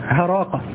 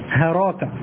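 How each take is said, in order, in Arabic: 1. تبدأ الكلمة بصوت الهاء. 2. تبدأ الكلمة بصوت الهاء.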